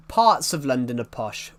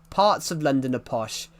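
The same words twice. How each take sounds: The two takes are said the same way.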